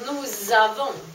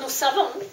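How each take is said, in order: First: The words are linked with a voiced z sound. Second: The words are linked with a voiceless s sound. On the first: We have. The speaker calls it right. "då binder man ihop här med, som ett z" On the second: We know. The speaker calls it wrong. "ett helt vanligt s"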